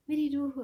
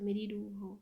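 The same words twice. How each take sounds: First: Higher and louder, with full feeling; a lover's climax, higher and much louder; emphatic loud repeat. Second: Said in the usual way. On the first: A narrator's reading. Poem's last line repeated for emphasis.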